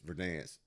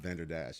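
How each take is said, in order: First: The name is said as Verdansk. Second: The name is said as Venderdash. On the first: The speaker calls it right. "It's Verdansk" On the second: The speaker calls it wrong. "It's not Venderdash"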